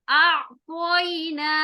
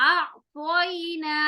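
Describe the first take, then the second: No difference in how they are said.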